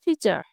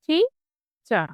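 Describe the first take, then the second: First: Said in the usual way. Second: টি-চার in two separate beats, a clear pause between; split into syllables. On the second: Shown as a demonstration. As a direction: say টি-চার slowly, first part pitched up. (টি-চার দুই ভাগে ভেঙে ধীরে উচ্চারণ) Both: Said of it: "এটিতে দুটি syllable".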